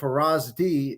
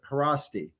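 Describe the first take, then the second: First: The middle consonant is a z sound. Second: The middle consonant is an s sound. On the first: The speaker calls it wrong. "instead of Harazdi" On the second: The speaker calls it right. "an S and a Z together is uh, pronounced like just an S"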